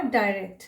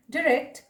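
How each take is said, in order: First: Second "डायरेक्ट" as dye-rekt; alternative pronunciation. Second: First "डायरेक्ट" as di-rekt, short i; alternative pronunciation. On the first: Teacher showing the other accepted "डायरेक्ट", said dye-rekt. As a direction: open "डायरेक्ट" with an eye diphthong. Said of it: "दोनों सही है". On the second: Teacher showing one accepted "डायरेक्ट", said di-rekt. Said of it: "प्रोनंसिएशंस एक से अधिक". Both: Shown as a demonstration.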